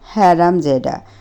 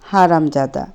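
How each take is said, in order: First: The word is said slowly with drawn-out sounds. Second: The word is said softly and briefly. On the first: "Rio শব্দগুলো টেনে উচ্চারণ করলো" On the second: "মৃদুসুরে বাংলায় বলে উঠল"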